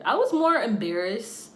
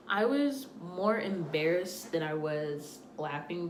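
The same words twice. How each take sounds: First: Louder and slower, leaning on was; first take of embarrassed, loud and stressed; emphatic. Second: Said in the usual way. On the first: Real, not acted. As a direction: punch it out, I was MORE embarrassed.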